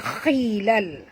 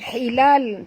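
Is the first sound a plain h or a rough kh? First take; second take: rough kh; plain h. First: The word begins with a rough, throaty kh sound. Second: The word begins with a plain, soft h sound. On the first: The speaker calls it right. "tapi khilal" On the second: The speaker calls it wrong. "bukan hilal"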